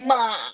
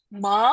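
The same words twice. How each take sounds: First: It is said with the Mandarin third tone. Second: It is said with the rising second tone. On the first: "yang ketiga itu disebutnya pisan sheng" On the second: "nah ini tuh harus naik"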